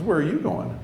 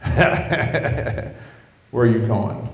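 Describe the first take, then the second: First: Higher-pitched, puzzled query; raised pitch, simply asking; curious question. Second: Mock laugh running into the question; scoffing laugh, then the question; laughing disbelief. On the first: Retold or imitated. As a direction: ask it lightly, imitating a curious girlfriend. Girlfriend's first, curious question. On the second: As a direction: laugh it off, imitating a disbelieving girlfriend. Girlfriend laughs at the answer.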